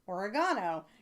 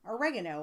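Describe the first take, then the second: First: It is said with a British accent. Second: It is said with an American accent.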